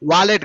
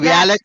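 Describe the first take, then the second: First: The first syllable is a plain 'va' sound. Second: The first syllable is a gliding 'vya' sound. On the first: The speaker calls it wrong. "వాలెట్ కాదు" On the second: The speaker calls it right. "వ్యాలెట్ అనాలి"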